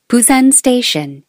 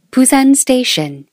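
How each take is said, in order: Both takes have the same delivery.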